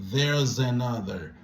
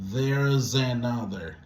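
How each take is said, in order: No difference in how they are said.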